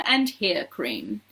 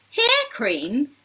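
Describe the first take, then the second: First: Slow falling finish on "hair cream"; list-closing fall. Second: Higher questioning exclamation; incredulous cry. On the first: Reading the last cream on the door, "hair cream" low and final. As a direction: drop lower on "and hair cream". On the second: Mike questioning the sign's last cream, incredulous cry. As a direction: echo it in disbelief, pitch lifted. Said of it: "cried Mike T V". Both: A narrator's reading.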